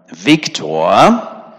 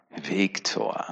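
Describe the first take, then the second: First: Loud warning call of a name, rising at the end; threatening teacher call. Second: Viktor said soft and sneering with a teasing rise; mocking. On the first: Retold or imitated. Teacher warning pupil Viktor by name, loud and threatening. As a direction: call Viktor out like a stern teacher about to scold. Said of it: "allein dieser Ton machte ja deutlich, das ist ja bedrohlich". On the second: Preacher showing how a name can be mocked, soft sneering. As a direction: tease the name Viktor quietly, full of scorn. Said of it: "man kann das auch spöttisch sagen".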